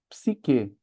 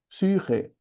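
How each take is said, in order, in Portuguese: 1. A primeira vogal é um som 'ee' simples. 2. A primeira vogal é um som 'ü' arredondado. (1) "a gente fala psique" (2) "ela seria algo como psyche"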